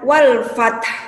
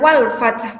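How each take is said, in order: First: The final t and h sounds are clearly pronounced. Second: The final h sound is missing from the word. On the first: The speaker calls it right. "Perjelas huruf ha dan huruf ta-nya. Jadi dibaca wal fath" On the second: The speaker calls it wrong. "mungkin hilang huruf ha-nya. Tanpa huruf ha. Itu termasuk bacaan yang salah"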